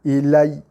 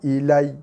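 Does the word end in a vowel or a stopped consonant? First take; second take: consonant; consonant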